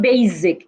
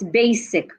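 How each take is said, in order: First: The middle consonant sounds like z. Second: The middle consonant sounds like s. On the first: The speaker calls it wrong. "not sound like Z. It's not basic" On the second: The speaker calls it right. "it's basic"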